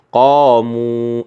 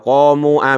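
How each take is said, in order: First: The word ends on the long u. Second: An extra a sound follows the long u. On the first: The speaker calls it right. "alifnya dilepas ya, dibaca panjang" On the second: The speaker calls it wrong. "nggak boleh"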